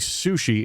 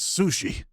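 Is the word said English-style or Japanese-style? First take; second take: English-style; Japanese-style. First: It is said with an English-style emphasis. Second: It is said with a Japanese-style emphasis.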